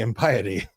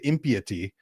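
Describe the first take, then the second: First: It uses the pronunciation people use today. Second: It uses the pronunciation that is no longer used. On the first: This is how people say it. "we say impiety" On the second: People do not say it this way. "We don't say impiety"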